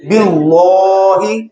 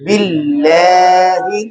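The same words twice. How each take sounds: First: बिल्लाही said as bilohi, deliberately wrong; wrong pronunciation. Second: बिल्लाही slow with a thin, light ल; correct pronunciation. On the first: Teacher demonstrates the wrong बिल्लाही. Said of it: "बिल्लाही गलत है". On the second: Teacher models the correct बिल्लाही after the wrong one. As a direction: recite बिल्लाही slowly and correctly. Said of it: "क्या पढ़ेंगे?". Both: Shown as a demonstration.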